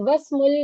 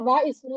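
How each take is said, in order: First: The 'i' vowel is dropped, linking into 'wasmu'. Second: The 'i' vowel of 'ismu' is pronounced separately. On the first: The speaker calls it right. "ഈ എന്നുള്ള ഉച്ചാരണം ... നഷ്ടപ്പെട്ടു" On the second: The speaker calls it wrong. "നമ്മൾ വ ഇസ്മു എന്ന് വായിക്കരുത്"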